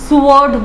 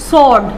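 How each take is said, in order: First: The word is said with a w sound. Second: The word is said with no w sound. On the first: The speaker calls it wrong. "बहुत लोग इसको स्वॉर्ड बोलते हैं" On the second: The speaker calls it right. "जब ए डब्ल्यू को मैं silent रखूंगी तो क्या बनेगा?"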